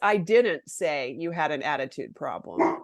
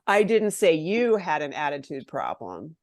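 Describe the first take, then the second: First: The stress falls on the word didn't. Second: The stress falls on the word you. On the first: The speaker denies having said it at all. "I didn't do it, right?" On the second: It was said about someone else. "I was saying it about someone else"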